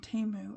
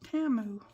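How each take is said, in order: First: The first vowel sounds like 'eh'. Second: The first vowel sounds like 'ah'. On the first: This is how the speaker has long said it. The speaker calls it wrong. "I've been saying it wrong for so long" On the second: This is how the company's commercial says it. The speaker calls it right. "they were pronouncing the name of it Tamu"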